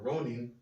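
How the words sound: The name is said with a Japanese pronunciation.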